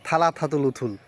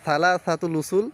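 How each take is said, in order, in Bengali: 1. ব্যঞ্জনগুলো th ধ্বনির মতো উচ্চারিত হয়। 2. ব্যঞ্জনগুলো s ধ্বনির মতো উচ্চারিত হয়। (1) "থ দিয়ে ইংলিশ স্টাইলে" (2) "মানে সালা সাতুল উসুল"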